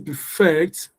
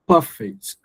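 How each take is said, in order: First: The stress is on the second syllable. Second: The stress is on the first syllable. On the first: It is used as a verb. "if it's a verb" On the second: It is used as an adjective. "you stress the first syllable"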